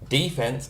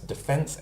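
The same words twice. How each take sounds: First: It is said the American way. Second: It is said the usual Australian way. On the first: The speaker calls it wrong. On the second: The speaker calls it right.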